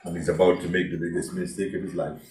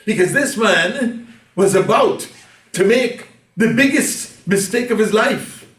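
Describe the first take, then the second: First: Mistake of his life, low and soft; somber aside. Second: Mistake of his life, high and loud; preaching climax. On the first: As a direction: drop it low, heavy and grave. Preacher repeats, subdued. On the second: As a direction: hit "biggest" hard at full preaching force. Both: Real, not acted.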